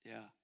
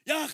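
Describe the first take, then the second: First: It is said softly and gently. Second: It is said suddenly and loudly. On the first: The message is easy to ignore. "이렇게 나긋나긋하게 얘기할 때는" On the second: The message cannot be ignored. "갑자기 크게 말씀하시는 거예요"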